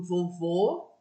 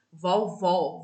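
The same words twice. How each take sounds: First: "vovô" drawn out slowly, final O closed; slow closed vowel. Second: "vovó" very slow and louder, final O wide open; slow open vowel. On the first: Teacher modelling the closed O for the class, very slow. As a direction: stretch "vovô" slowly and keep the last O closed. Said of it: "a vogal está fechada". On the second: Teacher modelling the open O for the class, very slow and louder. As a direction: drag out "vovó" with a big open O. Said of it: "vogal aberta". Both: Shown as a demonstration.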